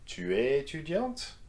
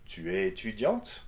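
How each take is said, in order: First: The pitch climbs steadily across the phrase. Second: The pitch jumps up on the last syllable. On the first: "or gradually" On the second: "raise your intonation on the very last syllable"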